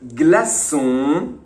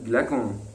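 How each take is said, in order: First: The middle consonant is a soft s sound. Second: The middle consonant is a hard k sound. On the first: The speaker calls it right. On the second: The speaker calls it wrong.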